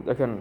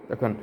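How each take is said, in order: No difference in how they are said.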